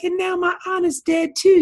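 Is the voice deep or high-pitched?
high-pitched. It is said in a high voice.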